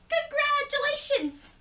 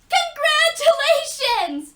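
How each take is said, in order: First: It is said more quietly. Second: It is said very loudly.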